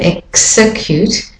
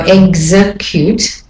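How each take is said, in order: First: The x is voiceless, sounding like ks. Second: The x is voiced, sounding like gz. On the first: This follows the usual rule. "instead of execute" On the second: Some speakers say it this way. "I've also heard people go execute"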